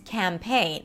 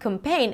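First: The second syllable has a full, held A vowel. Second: The second syllable's vowel is reduced and short. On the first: The speaker calls it right. "it's campaign" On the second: The speaker calls it wrong. "It's not campaign"

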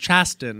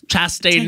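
First: The name is pronounced in an odd way. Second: The name is pronounced in the usual way. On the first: The speaker calls it wrong. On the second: The speaker calls it right.

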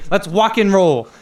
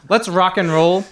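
First: Rock is said in an accent, sounding like walk. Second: Rock is said with a plain, unaccented pronunciation.

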